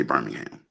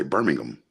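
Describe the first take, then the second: First: Said in the usual way. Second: Birmingham said "BUR-ming-um" with a reduced unstressed ending; English pronunciation. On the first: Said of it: "they don't say Birmingham". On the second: Shown as a demonstration. Explaining how the English city is named, Birmingham said "BUR-ming-um". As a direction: Birmingham with the h dropped and the last syllable swallowed to "um". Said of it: "They say Birmingham".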